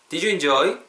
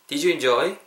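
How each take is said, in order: No difference in how they are said.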